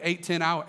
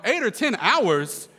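First: Said in the usual way. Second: Slow, high, loud echo in disbelief; incredulous. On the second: Retold or imitated. Reluctant cousin hearing the fishing trip's length, incredulous. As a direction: stretch out the repeat as if outraged. Repeats their figure in disbelief.

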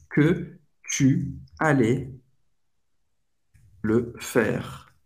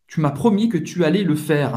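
First: Slow, separated words with long pauses; slow teaching pace. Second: Said in the usual way. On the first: Shown as a demonstration. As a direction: break the French sentence down piece by piece. Teacher breaks the example down slowly. (bem devagar, palavra por palavra)

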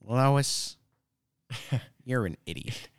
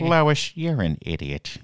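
First: Lightly voiced Peter Griffin, laughing through it; half-hearted cartoon dad voice. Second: A hint of Peter Griffin, "Lois" called high and loud; lightly voiced cartoon dad scolding. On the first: Friend copying the Peter Griffin line back, half-laughing. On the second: Friend imitating Peter Griffin scolding Lois, lightly voiced. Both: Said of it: "Peter Griffin".

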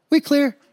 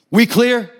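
First: High, meek reply; mock-timid neighbor agreeing; intimidated little guy. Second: Higher, punched question; imitated tough dad's challenge; threatening demand. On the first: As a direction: answer in a small high voice. Intimidated little dad answering. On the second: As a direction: demand an answer sharply. Dad threatening Jeff's dad.

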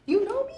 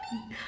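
First: Much higher, louder amazed question; surprised. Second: Said in the usual way. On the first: Retold or imitated. To the cashier who recognized her, high astonished rise. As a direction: squeak it like you can't believe it.

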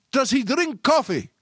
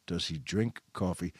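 First: Higher, slow, drawn-out call; retold yell. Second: Low, soft, reflective; musing to himself. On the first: Store guy calling after the shopper down the hall, retold yell. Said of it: "he yelled". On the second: Retold or imitated. Storyteller marvelling at the guy's question, quiet musing. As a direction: say it softly, as a private thought. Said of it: "And I thought".

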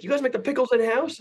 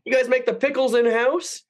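First: High, baffled customer repeating himself; hammed-up customer question; mock customer voice. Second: High, wondering customer; mock-innocent high question. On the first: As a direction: repeat it pitched up, mock-puzzled. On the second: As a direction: ape the clueless customer, pitched way up. Mimicking customer in kitchen.

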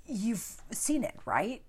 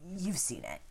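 First: High, rising disbelief; incredulous question. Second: Said in the usual way. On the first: Real, not acted. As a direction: ask as if amazed they might not have.

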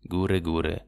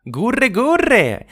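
First: Low, fading dove coo. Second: High, loud cooing wood pigeon; cooing doves. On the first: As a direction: let the coo die away. Waldtauben gurren zum Schluss. (leises, tiefes Gurren) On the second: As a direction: coo it out high like a dove. Waldtauben gurren. (hohes, lautes Gurren einer Waldtaube) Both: Acted.

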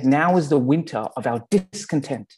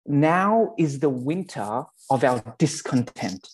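First: Said in the usual way. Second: Slow, weighty Shakespeare recital. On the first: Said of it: "the term goes". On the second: Shown as a demonstration. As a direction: read the line slowly like a stage actor. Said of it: "thanks to my Australian accent".

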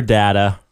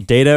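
First: "data" said as DAT-a; short a in "data"; short-a pronunciation. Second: "Data" said as DAY-ta; long a in "Data"; long-a pronunciation. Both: Shown as a demonstration. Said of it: "arguing about this".

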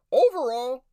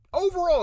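First: Overall said high, loud and stretched; hyped-up overall. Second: Overall shot much higher and loud, then falling; hyped-up overall. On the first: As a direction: sell the word overall like an announcer. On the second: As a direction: push overall up and let it drop. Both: Shown as a demonstration.

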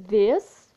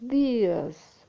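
First: "This" with a short vowel, said loud and rising; pronunciation demo. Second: "these" with a long ee; pronunciation demo. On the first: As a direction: clip "This" short and punch it up. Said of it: "é uma coisa só, a pronúncia". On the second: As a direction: stretch the ee in "these". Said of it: "A pronúncia é diferente". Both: Shown as a demonstration.

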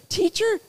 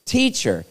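First: "Teacher" jumping up very high as a question; questioning echo. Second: Said in the usual way. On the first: Acted. Preacher querying the title the ruler used, high questioning echo.

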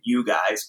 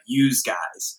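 First: Said in the usual way. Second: "yous guys" with a z sound closing "yous"; "yous" for "you", voiced z on the end; New Jersey "yous". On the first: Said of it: "they say". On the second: Shown as a demonstration. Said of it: "or even more severe".

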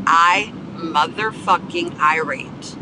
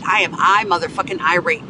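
First: "I motherfucking irate" slowly, word by word; drawn-out emphasis. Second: Said in the usual way. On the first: Real, not acted. Podcaster insisting on the right word, "motherfucking irate" slow and emphatic. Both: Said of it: "Get that right".

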